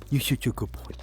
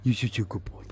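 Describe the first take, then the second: First: Whispered dog praise. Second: Sing-song praise for a pet. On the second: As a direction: coo it to the dog. Praising the dog. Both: Real, not acted.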